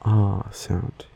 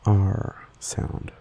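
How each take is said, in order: First: R sound with R as an open "ah", no r-colour; soft non-rhotic R. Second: R sound with R as "arr", the r clearly pronounced; hard rhotic R. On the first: Explaining own accent to listeners, non-rhotic R. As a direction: say R as a long Australian "ah". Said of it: "I say it more like an". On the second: Contrasting with own accent, hard R. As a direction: curl the R into a hard American "arr". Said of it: "instead of a harder". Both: Shown as a demonstration.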